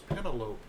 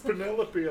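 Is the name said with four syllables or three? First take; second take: three; four. First: It has three syllables and ends like cantaloupe. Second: It has four syllables and ends in a clear ee. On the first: The speaker calls it wrong. "Which I thought was Penelope when I was a kid" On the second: The speaker calls it right. "it's Penelope"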